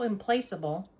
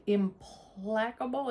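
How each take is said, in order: First: "implaceable" said with a long A, im-PLACE-able; second pronunciation attempt. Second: "implacable" said slowly with a short A, im-PLACK-able; trying a pronunciation. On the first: Second try at the same word. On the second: Tries two pronunciations while reading. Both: Real, not acted.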